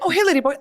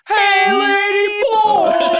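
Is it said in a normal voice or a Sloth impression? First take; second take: normal voice; Sloth impression. First: It is said in a plain, normal voice. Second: It is said imitating Sloth from the Goonies.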